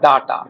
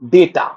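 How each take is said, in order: First: The first vowel sounds like 'ah'. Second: The first vowel sounds like 'ay'. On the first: The speaker calls it wrong. "এটা সাধারণত আমরা ভুল উচ্চারণ করি" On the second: The speaker calls it right. "কথাটা ডাটা নয়, কথাটা হচ্ছে কিনা ডেটা"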